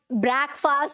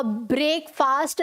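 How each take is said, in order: First: ब्रेकफास्ट tried as "brack-faast"; unsure pronunciation guess. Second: ब्रेकफास्ट tried slowly as "brake-faast"; unsure pronunciation guess. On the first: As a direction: open "a" in first half of ब्रेकफास्ट. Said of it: "क्या था pronunciation?". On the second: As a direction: test out long vowels in ब्रेकफास्ट. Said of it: "कैसे pronounce करना है". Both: Acted.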